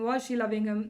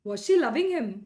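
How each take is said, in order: First: The pitch stays flat throughout. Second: The pitch rises and falls throughout. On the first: The speaker calls it wrong. "ಈ ಥರ ಅಲ್ಲ" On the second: The speaker calls it right. "ಈ ಥರ ನಿಮ್ಮ ಭಾಷೆಯಲ್ಲಿ ಏರಿಳಿತ ಇರಬೇಕು"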